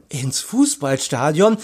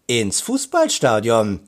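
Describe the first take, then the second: First: Higher, excited question with rising end; enthusiastic echo. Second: "Fußballstadion" stated with a falling end; announcing fall. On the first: Boy repeats the surprise, enthusiastic and questioning. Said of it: "wiederholte Peter begeistert". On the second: Aunt reveals surprise to boys, "Fußballstadion" with announcing fall. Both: A narrator's reading.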